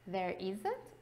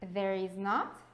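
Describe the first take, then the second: First: The final words are contracted together. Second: It is said as three full words.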